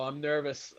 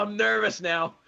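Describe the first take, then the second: First: Said in the usual way. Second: Higher and louder, laughing through nerves; laughing nervously. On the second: Real, not acted. Fan awaiting his team's pick, laughing nervously.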